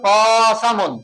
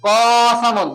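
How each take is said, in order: The two takes are said the same way.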